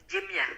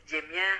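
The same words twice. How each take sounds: The two takes are said the same way.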